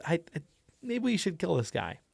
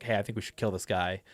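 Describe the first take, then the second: First: Hesitant, stammering start, higher pitched; falter, then offer it timidly, higher; nervous character. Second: Said in the usual way. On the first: Shown as a demonstration. Anxious player character suggesting they kill someone, nervous. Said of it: "No voice, but definitely di-, two different people". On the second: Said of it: "when they're normally sitting there".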